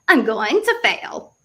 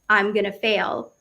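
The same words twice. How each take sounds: First: It is said in a put-on funny accent. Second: It is said in the speaker's normal accent.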